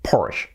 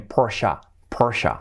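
First: "Porsche" as "porsh", one syllable; "Porsche" with no final vowel; English Porsche. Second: "Porsche" as "POR-sha", two syllables; "Porsche" the German way, with a final open vowel; German-style Porsche. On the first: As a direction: say "Porsche" stopping on the sh. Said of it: "en inglés sería". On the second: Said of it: "sé que es alemana". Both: Shown as a demonstration.

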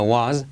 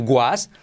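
First: "was" with a clean w, no g; was bien pronunciado. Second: "was" with a hard g in front, gwas; was mal pronunciado. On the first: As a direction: start "was" on rounded lips, without g. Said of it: "sino was". ("was" con w suave, sin g) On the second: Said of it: "cuidado no decir was". ("was" con una g delante, como "guas") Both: Shown as a demonstration.

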